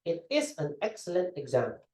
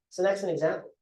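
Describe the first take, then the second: First: Each word is said separately and fully. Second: The words glide smoothly into one another. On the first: "if they're going to say" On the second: "they would say"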